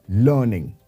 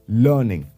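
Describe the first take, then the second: The two takes are said the same way.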